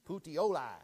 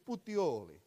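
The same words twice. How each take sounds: First: It is said with a flat American accent. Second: It is said with a lively Italian accent. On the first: The speaker calls it wrong. "We all want to say it with our American accent" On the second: The speaker calls it right. "See how it just rolls off the tongue when you say it the right way?"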